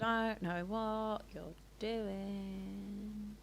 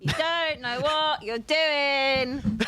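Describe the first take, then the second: First: It is said quietly, under the breath. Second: It is said loudly and clearly.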